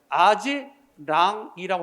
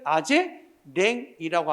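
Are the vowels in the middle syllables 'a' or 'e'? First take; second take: a; e. First: The middle syllables use the open 'a' vowel. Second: The middle syllables use the fronted 'e' vowel. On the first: The speaker calls it right. "아지랑이라고 해야 되는데" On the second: The speaker calls it wrong. "잘못된 발음이다"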